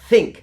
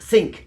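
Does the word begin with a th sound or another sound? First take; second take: th sound; other sound. First: It begins with the tongue lightly touching the teeth. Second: It begins with a sound made without tongue-teeth contact. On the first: The speaker calls it right. "place that tip against the upper teeth" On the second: The speaker calls it wrong. "not think, because that's what they say"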